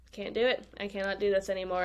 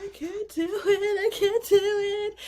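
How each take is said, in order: First: Said in the usual way. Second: High, tearful, slow plea reenacted; a retold sob, voice high and breaking; imitated sobbing. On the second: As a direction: mimic the breakdown, pitched way up like crying. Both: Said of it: "And I just start sobbing".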